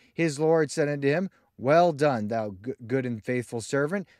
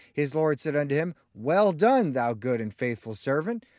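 Both takes have the same delivery.

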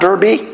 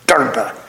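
First: The word ends in an ee sound. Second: The word ends in a vowel unlike ee. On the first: The speaker calls it wrong. "It's not Derby" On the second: The speaker calls it right. "The E is pronounced, but not as an E"

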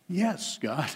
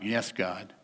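First: It is said willingly and sincerely. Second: It is said grudgingly and reluctantly.

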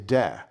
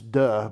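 First: It is said with a plain e vowel. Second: It is said with a French, u-like vowel. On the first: The speaker calls it right. "We say de. It's an E, and not a U" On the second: The speaker calls it wrong. "If you're in French, it's de"

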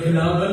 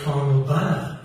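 First: The name is said as the local place name. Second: The name sounds like the words 'carnal banner'. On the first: The speaker calls it right. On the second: The speaker calls it wrong.

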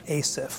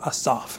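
First: The name is said with an English pronunciation. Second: The name is said with a Hebrew pronunciation.

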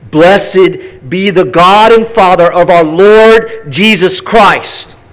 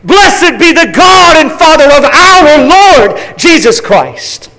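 First: It is read plainly, without exclamation. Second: It is read with exclamatory zeal.

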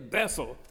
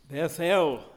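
First: The second syllable is reduced and run together with the first. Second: The second syllable is said fully and kept apart from the first. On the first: "or as we often say" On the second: "Sometimes we should emphasize the syllables, really"

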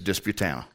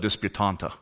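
First: The name is said without the second t sound. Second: The name is said with the second t sound. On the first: The speaker calls it right. "It's Disputana" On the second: The speaker calls it wrong. "It's spelled Disputanta, but you dare not say that"

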